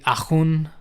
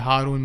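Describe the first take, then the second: First: The name is said with a French accent. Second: The name is said with a Pakistani accent. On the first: This is how people in France say the name. "The French version would be" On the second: This is how the family says the name. "if it was my dad pronouncing my name"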